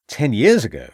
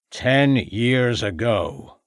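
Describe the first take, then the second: First: Louder, incredulous question; frustrated exclamation. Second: Put-on very slow, drawn-out old farmer; slow revelation. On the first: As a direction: throw it back in exasperated disbelief. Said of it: "exclaimed a frustrated Ravenscroft". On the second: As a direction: stretch each word out for weight. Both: A narrator's reading.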